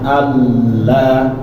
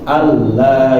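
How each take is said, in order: First: The nasal sound is held and lengthened. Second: The nasal sound passes quickly without being held. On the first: The speaker calls it wrong. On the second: The speaker calls it right. "langsung pindah kayak tasydid"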